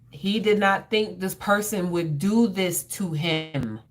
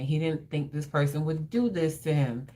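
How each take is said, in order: First: The sentence is said with strong, forceful emphasis. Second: The sentence is said in a plain, even way.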